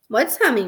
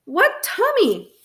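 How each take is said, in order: First: Said in the usual way. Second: High, drawn-out incredulous demand; shouting. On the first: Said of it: "Mom asked". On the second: A narrator's reading. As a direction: raise the pitch sharply, stretch it out. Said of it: "I shouted at my brother".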